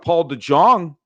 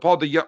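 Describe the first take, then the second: First: The name is said with a J sound. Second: The name is said with a Y sound. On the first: The speaker calls it wrong. "But then I said DeJong because I'm an idiot" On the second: The speaker calls it right. "DeYoung. Yeah, that's what I thought"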